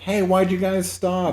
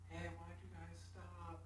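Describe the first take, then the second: First: The line is shouted loudly and clearly. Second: The line is said very quietly, barely audible. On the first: This is how it sounds in the film. "you can hear him yell like" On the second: This is how it would sound in reality. "You would barely hear it"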